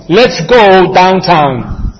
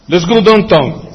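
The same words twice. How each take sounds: First: Slow, fully sounded "down-town" with open diphthongs; careful standard pronunciation. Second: Downtown turned into "don-ton"; Nuyorican pronunciation. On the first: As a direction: spell out "Let's go downtown" slowly, every vowel full. Careful standard version for contrast. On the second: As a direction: say "Let's go downtown" as "les gu donton". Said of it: "Pero es downtown". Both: Shown as a demonstration.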